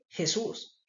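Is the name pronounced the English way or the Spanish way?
Spanish. The name is said with Spanish pronunciation. "En español"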